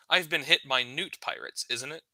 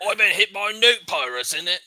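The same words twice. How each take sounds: First: Said in the usual way. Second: Thick British, swallowing the consonants in "newt pirates"; thick British accent. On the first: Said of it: "translation repeat". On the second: Acted. NPC tells the party who attacked him, thick British accent. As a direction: mumble "innit" like a thick British local. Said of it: "Very thickly and Britishly".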